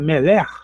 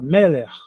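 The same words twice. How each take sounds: First: The stress is on the last syllable. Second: The stress is on the first syllable. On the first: The speaker calls it wrong. "Em vez de falar meler" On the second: The speaker calls it right. "o acento fica no começo"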